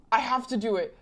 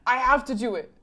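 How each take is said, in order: Both takes have the same delivery.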